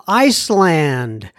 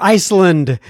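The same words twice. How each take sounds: First: "Iceland" with a full "land"; full-vowel ICE-LAND. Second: "Iceland" ending in a weak "lund"; reduced second syllable. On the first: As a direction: say Iceland as two words, ice and land, drawn out. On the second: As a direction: say Iceland with an unstressed "lənd". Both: Shown as a demonstration. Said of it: "don't pronounce it right".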